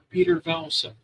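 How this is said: The name is said the American way.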